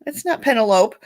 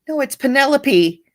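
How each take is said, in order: First: Penelope said as PEN-uh-lope, rhyming with rope; Penelope mispronounced as PEN-uh-lope; wrong pronunciation. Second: Penelope said as puh-NEL-uh-pee with four syllables; Penelope said properly as puh-NEL-uh-pee; correct pronunciation. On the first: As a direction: clip Penelope to three syllables, PEN-uh-lope. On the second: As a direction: give Penelope four syllables ending in a long ee. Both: Shown as a demonstration.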